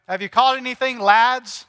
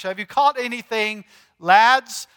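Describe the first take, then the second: First: A hint of Scottish, calling out to the lads; mock Scottish fisherman hail; Scottish accent shouted across the lake; light Scottish accent. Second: A hint of Scottish, calling out lads; Scottish accent call; light Scottish accent. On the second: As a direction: repeat it with a touch of Scottish. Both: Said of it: "That sounds so Scottish".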